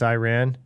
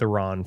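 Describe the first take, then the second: First: The first syllable has a long 'eye' vowel. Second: The first syllable has a short 'ih' vowel. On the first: The speaker calls it wrong. "That's what I used to say, and then people started leaving comments that said I was saying it wrong" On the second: The speaker calls it right. "not, it's not. Long Eye"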